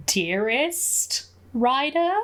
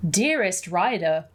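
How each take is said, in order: First: Slow, rising question on each word; flustered, questioning echo, higher and slower; taken aback. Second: Said in the usual way. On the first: Real, not acted. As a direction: draw it out, pitch climbing in disbelief. Repeats greeting, taken aback.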